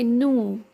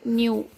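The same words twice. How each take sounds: First: The vowel is plain 'oo', 'noo'. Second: The vowel has a 'y' glide, 'nyoo'. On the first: "they say new" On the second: "in British English they say new"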